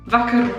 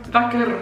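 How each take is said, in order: Both takes have the same delivery.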